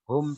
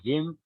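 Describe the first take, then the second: First: The vowel is pronounced as u. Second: The vowel is pronounced as i. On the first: This is the basic form of the pronoun. "hum dibaca him" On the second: The pronoun follows a kasrah or a silent ya. "setelah kasroh, setelah mati, hum dibaca him"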